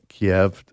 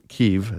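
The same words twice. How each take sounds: First: The name is said the older, familiar way. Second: The name is said the way now common. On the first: The speaker calls it wrong. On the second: The speaker calls it right.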